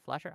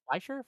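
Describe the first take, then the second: First: "Flesher" said as FLESH-er, rising like a question; "Flesher" with a short e, FLESH-er, asked; Flesher pronounced. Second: "Fleischer" said as FLY-sher, rising like a question; "Fleischer" with an eye sound, FLY-sher, asked; Fleischer pronounced. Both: Shown as a demonstration. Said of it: "I don't know".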